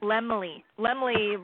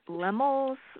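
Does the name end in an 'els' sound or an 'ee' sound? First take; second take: ee; els. First: The name ends in an 'ee' sound. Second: The name ends in an 'els' sound. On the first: The speaker calls it right. "I think they call it Lemley" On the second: The speaker calls it wrong. "I might be butchering the name"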